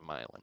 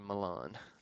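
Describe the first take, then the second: First: The name is said the Tennessee way. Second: The name is said the Italian way. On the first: This is how locals in Tennessee say it. "Tennessee, we say" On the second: This is how people in Italy say it. "Italy, they say"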